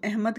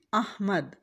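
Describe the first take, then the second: First: अहमद said as ehmad, e under alif; अहमद with a zer sound, ehmad; wrong Ahmad. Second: अहमद with open a on alif, not ehmad; अहमद as ahmad, zabar on alif; correct Ahmad. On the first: Teacher showing the common mistaken अहमद. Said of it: "अलिफ के नीचे ज़ेर लगा देते हैं". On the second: Teacher correcting students to the right अहमद. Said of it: "हमने अलिफ के ऊपर ज़बर लगानी है". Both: Shown as a demonstration.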